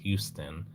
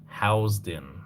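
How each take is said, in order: First: The first syllable sounds like 'hue'. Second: The first syllable sounds like 'house'. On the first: The speaker calls it wrong. "It's not pronounced Houston" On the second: The speaker calls it right. "it's pronounced Housden"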